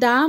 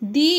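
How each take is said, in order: First: The word is said with a short 'thuh' vowel. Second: The word is said with a long 'thee' vowel. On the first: The next word starts with a consonant. "তাই দা উচ্চারিত হয়েছে" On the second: The next word starts with a vowel. "তাই দি উচ্চারিত হয়েছে"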